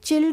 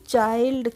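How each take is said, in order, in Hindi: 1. स्वर 'chill' में 'ih' जैसा है। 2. स्वर 'eye' जैसा है। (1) "चिल्ड नहीं पढ़ेंगे हम" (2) "इसको पढ़ेंगे हम चाइल्ड"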